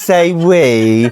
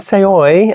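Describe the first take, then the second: First: The second word sounds like 'we'. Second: The second word sounds like 'oy'. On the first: The speaker calls it right. "no, it's Say We" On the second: The speaker calls it wrong. "am I speaking to Jeremy from Say Oi?"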